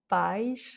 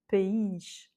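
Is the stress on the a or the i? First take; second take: a; i. First: The stress falls on the a. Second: The stress falls on the i. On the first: "donc l'accent est sur le A" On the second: "comme il y a un accent, on voit tout de suite qu'il a l'accent tonique"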